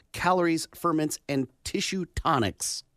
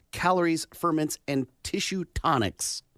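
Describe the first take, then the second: Both takes have the same delivery.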